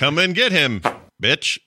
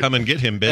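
First: There is a clear pause before bitch. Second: It runs on with no pause before bitch.

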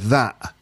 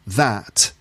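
First: The final T is a glottal stop. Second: The final T is clearly released. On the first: "you go that" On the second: "instead of saying that"

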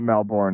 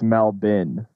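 First: The last syllable sounds like a full 'bourne'. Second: The last syllable sounds like a reduced 'bin'. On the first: The speaker calls it wrong. "it's not Melbourne" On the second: The speaker calls it right. "It's Melbin"

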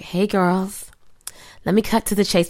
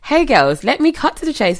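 First: It is read in an American accent. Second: It is read in a British accent. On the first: "Read an American accent" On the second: "I'm going to go back to British"

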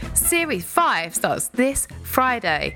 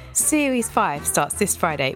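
First: It is said in a pushy salesman voice. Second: It is said in a plain, ordinary voice.

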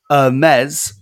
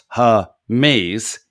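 First: The word is said with a French pronunciation. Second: The word is said with an English pronunciation. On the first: It names the clothing brand. "because French" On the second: It names the Greek messenger god. "pronounced Hermes, is the Greek messenger god"

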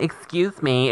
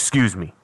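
First: It is said in a feminine tone. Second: It is said in a masculine tone.

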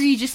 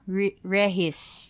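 First: The middle consonant is a g sound. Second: The middle consonant is a soft h sound. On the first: "as in parang register" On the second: "it's pronounced as, Rehis"

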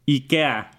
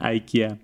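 First: It is said with a Mexican Spanish pronunciation. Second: It is said with an English pronunciation.

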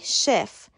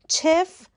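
First: The word begins with a soft 'sh' sound. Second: The word begins with a hard 'ch' sound. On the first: The speaker calls it right. "تلفظ صحیح شف" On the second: The speaker calls it wrong. "چف غلطه"

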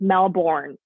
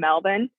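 First: It is said the American way, with R. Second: It is said the Australian way, without R.

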